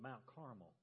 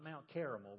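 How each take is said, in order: First: Carmel is pronounced as the mountain's name. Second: Carmel is pronounced like the dessert word. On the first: The speaker calls it right. "but Mount Carmel" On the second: The speaker calls it wrong. "Not Mount Carmel"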